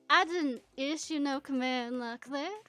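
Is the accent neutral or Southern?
Southern. It is spoken with a Southern accent.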